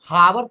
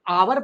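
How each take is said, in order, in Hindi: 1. यह शब्द h ध्वनि से शुरू होता है। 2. यह शब्द सीधे एक स्वर से शुरू होता है। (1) "अब इसको हम हावर तो बोलते नहीं है" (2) "हम आवर पढ़ते हैं"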